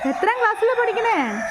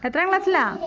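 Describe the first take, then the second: First: Asked again, pitched higher; coaxing higher repeat. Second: Said in the usual way. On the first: Real, not acted. Teacher coaxing a shy pupil to answer, higher. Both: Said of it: "repeats question to shy child".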